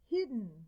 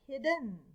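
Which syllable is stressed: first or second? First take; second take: first; second. First: The stress is on the first syllable. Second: The stress is on the second syllable. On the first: The speaker calls it right. "we accent the first syllable" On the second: The speaker calls it wrong. "not hidden"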